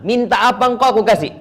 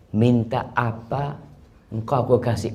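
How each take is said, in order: First: High, loud "Minta apa engkau"; raised offer. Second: Said in the usual way. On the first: Shown as a demonstration. Preacher voicing God's offer, raised and loud. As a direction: call out the offer.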